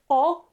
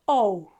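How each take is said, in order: First: The vowel is short and crisp. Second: The vowel is long and gliding. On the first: The speaker calls it right. "pronounce them short and crisp" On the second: The speaker calls it wrong. "not O"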